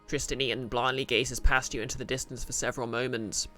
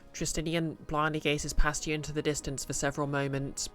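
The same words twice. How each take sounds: First: It is read in the character's voice. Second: It is read in the narrator's voice.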